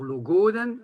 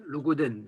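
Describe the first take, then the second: First: Logoden with a long, high GO; penultimate stress, Léonard. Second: Logoden with short GO, stress on DEN; last-syllable stress, Vannetais. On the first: Teacher contrasting Breton dialects, GO stressed in logoden. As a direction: punch the GO in logoden. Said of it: "ce serait la prononciation léonarde". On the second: Teacher contrasting Breton dialects, DEN stressed in logoden. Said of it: "plutôt vantaise". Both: Shown as a demonstration.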